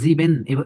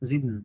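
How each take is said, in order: First: The word is drawn out with a long ending. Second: The word is short with a nasal ending. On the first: The speaker calls it wrong. "এরকম টেনে, টেনে বলে না" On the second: The speaker calls it right. "এটা নাকে বাজায় দিবেন"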